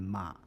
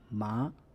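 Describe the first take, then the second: First: The tone stays low without rising again. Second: The tone rises from mid to high. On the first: "retain only the first half of the third tone" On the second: "It can change to the second tone"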